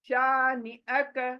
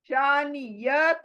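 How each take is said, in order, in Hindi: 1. अंतिम अक्षर से पहले ग्लॉटल कैच आता है। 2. अंतिम अक्षर से पहले 'य' की ध्वनि आती है। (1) "हमजा जबर अ" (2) "शानियक नहीं"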